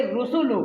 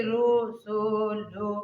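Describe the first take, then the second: First: रुसुलु said briskly, syllables joined; रुसुलु short and crisp, the right way; quick correct reading. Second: रुसुलु stretched slowly, every vowel drawn out; रुसुलु pulled long and slow as a bad example; drawn-out wrong reading. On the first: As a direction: run रुसुलु together quickly. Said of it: "ऐसे आपको पढ़ना है". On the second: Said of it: "खींचना नहीं है". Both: Shown as a demonstration.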